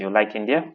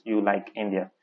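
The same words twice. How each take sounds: First: INDIA rising into a question. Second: Plain statement, falling on INDIA; affirmation. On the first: Teacher showing how intonation makes a question, rising tone. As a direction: lift the end of INDIA to ask it. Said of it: "Okay, so that way". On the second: Teacher showing the sentence without questioning tone, falling statement. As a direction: let INDIA drop like a full stop. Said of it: "it remains an affirmation". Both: Shown as a demonstration.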